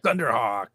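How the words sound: It is said with enthusiasm.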